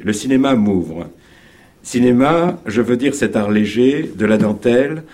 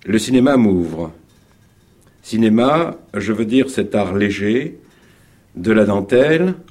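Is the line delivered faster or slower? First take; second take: faster; slower. First: The line is spoken at a faster pace. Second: The line is spoken at a slower pace. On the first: The speaker calls it right. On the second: The speaker calls it wrong.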